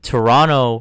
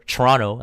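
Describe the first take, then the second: First: It is said in the standard outsider pronunciation. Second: It is said in the local Canadian pronunciation.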